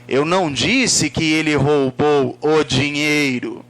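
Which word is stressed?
dinheiro. The word dinheiro carries the emphasis. Something other than money might have been stolen. "Pode ter sido outra coisa"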